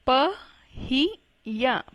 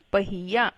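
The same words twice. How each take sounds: First: पहिया slowly split into pa, hi, ya; slow spelling-out reading of पहिया in three parts; syllable by syllable. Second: Said in the usual way. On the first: Shown as a demonstration. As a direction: sound out पहिया with gaps between syllables. Teacher sounds out word by syllables.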